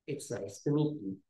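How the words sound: The pitch falls toward the end. The speaker calls it right.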